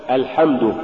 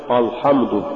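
First: Said in the usual way. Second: الحمد with a dark, backed opening أ; wrongly heavy hamza. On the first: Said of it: "نحو". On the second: Shown as a demonstration. Teacher warning against an error, heavy أ in الحمد. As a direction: make the first vowel of الحمد thick and heavy. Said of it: "اللحن بتفخيم الحروف المرققة".

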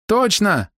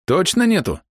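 First: High-pitched female confirmation; high, emphatic woman's answer; insistent woman. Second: Raised-pitch questioning voice; higher, probing query; doubting question. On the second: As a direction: ask for confirmation, pitch raised. Hero questions her denial. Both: A narrator's reading.

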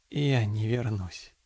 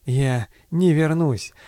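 First: Very soft, slow, lifeless; grey, dead voice. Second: Slow, remembered echo; echo in the head. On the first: Doomed pilot telling his captain his decision, dead-voiced and slow. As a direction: let all hope drain out, slow and hushed. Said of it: "Серым, мёртвым голосом". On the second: Pilot's words echoing in the captain's head, slow and haunting. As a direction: replay it slowly, like a lingering thought. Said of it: "отдавалось эхом в голове Окского". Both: A narrator's reading.

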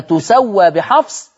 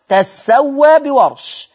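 First: "تسوى" said tu-sa-wa, higher; تخفيف السين. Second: "تسوى" said tas-sa-wa, held on the sin; تشديد السين. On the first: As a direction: damma on the ta and a single light sin in "تسوى". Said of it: "السين على حفص مخففة". ("تسوى" بضم التاء وسين مخففة) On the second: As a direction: fatha on the ta and a heavy doubled sin in "تسوى". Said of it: "وعلى رواية ورش مشددة أو مثقلة". ("تسوى" بفتح التاء وسين مشددة) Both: Shown as a demonstration.

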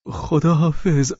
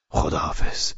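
First: High, drawn-out goodbye; eager farewell voice. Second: Low, hushed goodbye; subdued farewell. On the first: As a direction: lift the voice and stretch the goodbye. (خداحافظی کشیده با صدای زیر) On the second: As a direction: say goodbye briefly under your voice. Low farewell, answered high. (خداحافظی آهسته و بم) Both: Acted.

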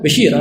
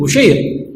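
First: بشير said "Bashir", a then long i; fatha on the ba. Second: بشير said "Bushayr", u then ay; damma on the ba. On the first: Teacher illustrating changed vowel marks, fatha reading "Bashir". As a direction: say بشير as ba-SHEER. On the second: Teacher illustrating changed vowel marks, damma reading "Bushayr". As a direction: say بشير as bu-SHAYR. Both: Shown as a demonstration. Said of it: "تغيير الشكل في الكلمة".

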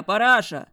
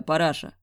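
First: "параша" shouted high and loud; man yelling "параша" from the yard; yelled nickname. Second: Said in the usual way. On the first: A narrator's reading. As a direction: bellow "параша" up at the window. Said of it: "проорал Глеб".

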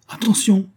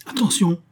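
First: Very high, urgent call; sudden high-pitched shout; repeated warning cry. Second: High-pitched warning cry; sharp, high narrated shout; called out from above. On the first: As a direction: give a sharp final warning, pitched high. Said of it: "répéta monsieur Jingle". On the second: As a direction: call a sudden warning down to someone below. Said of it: "une voix cria au-dessus de lui". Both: A narrator's reading.

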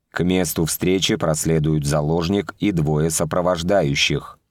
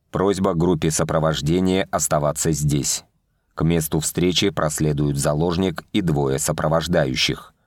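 First: Flat, uncaring machine repeat; dry metallic robot, bored; indifferent robot voice. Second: Dry metallic machine voice; booming metallic robot. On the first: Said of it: "равнодушно повторил робот". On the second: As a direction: speak like a cold drone. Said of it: "сухой металлический голос произнёс". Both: A narrator's reading.

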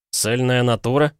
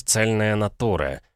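First: Высокий удивлённый вопрос с подъёмом на «натура»; переспросить с возмущением, повысив голос; возмущённое восклицание. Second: Said in the usual way. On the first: A narrator's reading. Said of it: "вскричал Пол". (возмущённо вскричать)

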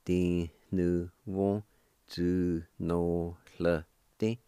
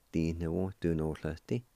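First: "di nu wo, zu no hle di" very slow, each syllable held; syllable-by-syllable pronunciation. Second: Said in the usual way. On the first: Shown as a demonstration. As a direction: sound out "di nu wo, zu no hle di" slowly for learners. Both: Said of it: "And together".

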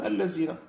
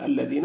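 First: اللذين with a z sound for the dhal; southern Algerian pronunciation. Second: الذين with a proper dh, tongue between the teeth; standard pronunciation. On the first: Teacher contrasting the dialect form, dhal said as z. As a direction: turn the dh of اللذين into z, allazina. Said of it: "الذال يحولونها إلى زاي". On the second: Teacher giving the standard form, a clear dhal. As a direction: say الذين as alladhina. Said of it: "بدل أن يقول الذين". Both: Shown as a demonstration.

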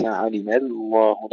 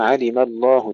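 First: علم الله with the لام begun thin, then thickened; faulty علم الله, thin لام sliding into heavy; lam starting light. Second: علم الله with light ميم and full, dark لام; heavy lam. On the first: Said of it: "لا نبدأها مرققة". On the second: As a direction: thicken the لام of الله right from its start in علم الله. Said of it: "تفخيم اللام". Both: Shown as a demonstration.

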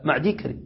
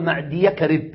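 First: معدي كرب said as maʕdi karib with a silent ya; correct form shown. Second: معدي كرب said as maʕdiya karib with a fatha on the ya; wrong ending shown. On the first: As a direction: give the right form معدي with the ya at rest. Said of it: "لا". (النطق الصحيح: معديْ كرب بسكون الياء) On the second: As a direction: show the wrong form معدي with an open ya. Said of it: "ما نقول". (نطق خاطئ: معديَ كرب بفتح الياء) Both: Shown as a demonstration.

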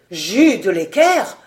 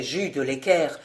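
First: Loud, slow incredulous question; stunned repeat. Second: Said in the usual way. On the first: A narrator's reading. Vaunois repeats the valet's name, stunned. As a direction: draw the name out, astounded. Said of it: "répéta Vaunois".

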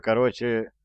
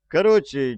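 First: Said in the usual way. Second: Loud slang. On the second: Acted. Thug speech to Nasan.

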